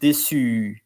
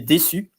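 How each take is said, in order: First: The final U vowel is lengthened. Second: The final U vowel is short. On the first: It is the feminine form. "with the the E, you pronounce a bit longer the U" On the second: It is the masculine form. "normally without the E, you say déçu"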